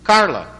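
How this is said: It is said in an American English accent. "Como é que se fala Carla nos Estados Unidos?"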